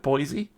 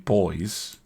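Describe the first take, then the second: First: The name is said the American way. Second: The name sounds just like the word boys. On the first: This is how people in America say it. "I think that's how um, it gets pronounced in America" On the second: This is how the speaker would naturally say it. "which is how I would pronounce it"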